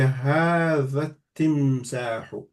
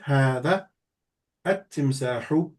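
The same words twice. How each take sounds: First: The words run together, skipping the article's vowel. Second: The words are separated, with the article fully pronounced. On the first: "So you will connect the two words together" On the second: "if you said it separately"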